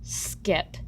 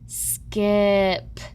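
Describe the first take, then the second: First: The word is said quickly as one unit. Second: Each sound is said slowly and separately. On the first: "read the word faster each time" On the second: "sound out each letter"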